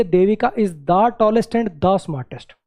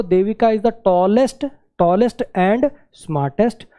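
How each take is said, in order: First: Slow read leaning on the repeated the; stress on the second the. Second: Very slow option read; reading option one. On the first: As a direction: read the second option, marking both the. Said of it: "दो बार the". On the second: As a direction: read the first option slowly, word by word. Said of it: "एक तो". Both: Shown as a demonstration.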